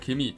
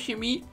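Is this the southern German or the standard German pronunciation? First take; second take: southern German; standard German. First: It is said with a southern German pronunciation. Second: It is said with a standard German pronunciation. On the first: "In Süddeutschland und Österreich, Freunde, da spricht man das so aus" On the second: "das heißt Chemie"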